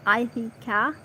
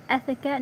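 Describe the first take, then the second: First: "Ithaca" starting like "eye", with an ee in the middle; eye-THEE-ka pronunciation. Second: "Ithaca" as ith-i-ka, starting with a short vowel; short first vowel. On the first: Reader guessing a place name, "Ithaca" as eye-thee-ka. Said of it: "is it Ithaca?". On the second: Reader after checking the place name, "Ithaca" as ith-i-ka. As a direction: say "Ithaca" without any "eye" sound. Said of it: "it's Ithaca". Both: Shown as a demonstration.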